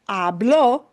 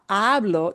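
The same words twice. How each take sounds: First: The stress is on the last syllable. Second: The stress is on the first syllable. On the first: He spoke, in the past. "it punches, puts stress on the end" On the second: I speak, in the present. "the hablo doesn't punch the O"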